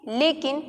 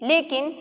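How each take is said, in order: The two takes are said the same way.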